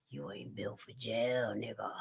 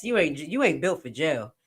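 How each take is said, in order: First: Quiet taunt. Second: Taunting. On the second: Taunting defendant. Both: Acted.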